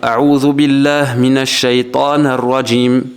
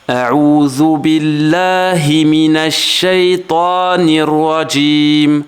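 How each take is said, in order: First: The short i vowel after billah is dropped. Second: The short i vowel after billah is clearly heard. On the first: The speaker calls it wrong. "vont faire l'erreur ... j'ai exagéré ... pour montrer l'erreur, mais qui vont en fait cacher le i" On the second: The speaker calls it right. "Vous entendez le petit son i"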